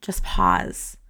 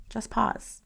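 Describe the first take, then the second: First: A calming whispered "Just pause.". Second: A hushed, gentle second "Just pause."; soft repeat. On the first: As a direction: whisper it, much lower and breathy. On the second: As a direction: say "Just pause." again, much softer. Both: Shown as a demonstration. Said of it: "I want you just to pause".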